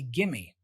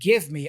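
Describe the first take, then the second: First: The words blend into one reduced word. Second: Both words are said fully and separately. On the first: "I say gimme" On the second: "Instead of give me"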